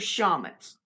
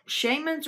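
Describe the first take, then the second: First: The first vowel is a short A sound. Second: The first vowel is a long A sound. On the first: "or short A" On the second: "With a long A"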